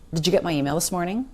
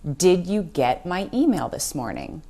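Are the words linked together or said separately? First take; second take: linked; separately. First: The words run together with reduced sounds. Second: Each word is said separately and fully. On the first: The speaker calls it right. "What you're going to hear is something more like this" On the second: The speaker calls it wrong. "Said no native speaker ever. We do not say every single word separately"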